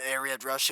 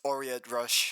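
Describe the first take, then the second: First: The name begins with an 'ah' sound. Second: The name begins with an 'oh' sound. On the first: The speaker calls it wrong. "It's not Ariat Rush" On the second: The speaker calls it right. "it's Oriat Rush"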